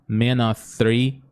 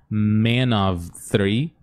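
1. O 'of' fica reduzido só a uma vogal. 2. O 'of' é falado com som de V. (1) "você fala só um a" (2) "Vamos colocar esse som do V aqui"

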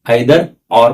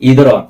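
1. 'either' मधला पहिला स्वर 'eye' सारखा वाजतो. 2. 'either' मधला पहिला स्वर 'ee' सारखा वाजतो. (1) "आयदर ऑर पण म्हणू शकता, दोन्हीही बरोबर आहे" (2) "बघा इदर ऑरला तुम्ही"

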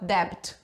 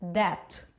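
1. Um som de B é pronunciado na palavra. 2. Nenhum som de B é pronunciado na palavra. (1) "Eu não vou falar debt, isso é errado" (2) "O jeito correto de eu falar isso aqui é"

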